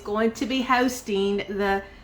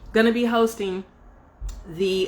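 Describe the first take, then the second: First: It is said in a put-on English accent. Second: It is said in the speaker's own accent.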